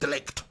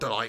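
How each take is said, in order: First: The name ends with a short 'ikt' sound. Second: The name ends with a long 'ite' sound. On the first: The speaker calls it right. "It's Delict" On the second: The speaker calls it wrong. "It's not Delight, is it?"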